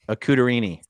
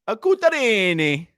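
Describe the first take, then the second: First: It is said in a plain accent. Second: It is said in an Italian accent.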